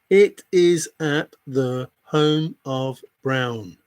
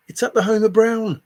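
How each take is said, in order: First: Each word spaced out; slow, deliberate repeat. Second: Loud, high insistence. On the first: Repeating the answer to a doubting viewer, slowly and pointedly. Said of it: "repeats answer slowly for emphasis". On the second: Telling a doubting viewer where it is, loudly. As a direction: blurt it out louder and higher. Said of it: "first take before slow repeat". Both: Real, not acted.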